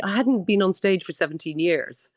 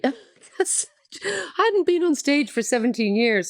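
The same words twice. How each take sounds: First: Said in the usual way. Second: Slow, tearful laugh through the words; laughing while holding back real tears; teary. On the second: Real, not acted. Guest tearing up on a podcast, slow and choked. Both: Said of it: "I've got a bit, bit teary".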